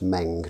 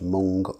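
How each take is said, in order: First: The vowel sounds like the one in 'bed'. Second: The vowel sounds like the one in 'bun'. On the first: The speaker calls it right. "That's Meng" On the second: The speaker calls it wrong. "not Mung ... Mung of course is a bean"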